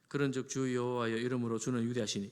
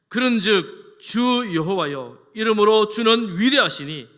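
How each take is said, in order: First: It is read flatly, without strong feeling. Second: It is read earnestly, with deep feeling. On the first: The speaker calls it wrong. "이렇게 읽지 말고" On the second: The speaker calls it right. "이런 간절한 마음을 담아서"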